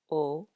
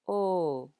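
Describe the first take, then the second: First: The vowel is short. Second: The vowel is long.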